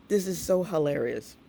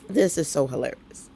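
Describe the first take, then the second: No difference in how they are said.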